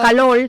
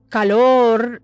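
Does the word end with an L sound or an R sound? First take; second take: L sound; R sound. First: The final sound is close to an L. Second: The final sound is a strong R. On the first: The speaker is from the capital. "de acá en la capital, por ejemplo, la L" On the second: The speaker is from the south. "una persona del sur de repente te va a decir"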